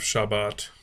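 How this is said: It is said with a Sephardic pronunciation.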